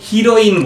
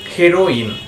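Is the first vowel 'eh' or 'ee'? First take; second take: ee; eh. First: The first vowel sounds like 'ee'. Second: The first vowel sounds like 'eh'. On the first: The speaker calls it wrong. "এই ওয়ার্ডটা আমরা অনেকেই উচ্চারণ করি হিরোইন বলে" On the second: The speaker calls it right. "কিন্তু এই ওয়ার্ডটার ঠিক উচ্চারণ হবে হেরোইন"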